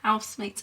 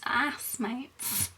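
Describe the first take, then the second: First: The h sound at the start is pronounced. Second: The h sound at the start is dropped. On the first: "not arsemates or housemates" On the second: "I always drop my H's"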